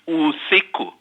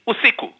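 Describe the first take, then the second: First: The name is said with all its sounds. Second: The name is said with a sound left out. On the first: The speaker calls it right. "let's say your name is Usiku" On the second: The speaker calls it wrong. "people um, delete sounds"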